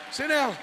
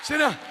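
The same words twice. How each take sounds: The two takes are said the same way.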